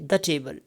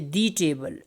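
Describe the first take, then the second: First: The word 'the' has a reduced schwa vowel. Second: The word 'the' has a full vowel. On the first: The speaker calls it right. "they will say the table" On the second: The speaker calls it wrong. "native speaker would never say the table"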